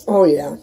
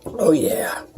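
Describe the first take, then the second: First: Said in the usual way. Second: Breathy whispered delight; whispered oh yeah. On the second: Real, not acted. Savoring coffee while filming a cooking video, whispered.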